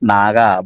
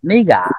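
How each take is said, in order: First: The first syllable sounds like 'nah'. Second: The first syllable sounds like 'nay'. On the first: "সঠিক উচ্চারণ হচ্ছে কি নাগা" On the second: "অনেক চাইনিজ নেই বলে"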